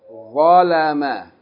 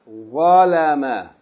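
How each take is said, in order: First: The first consonant is an emphatic, heavy sound. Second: The same.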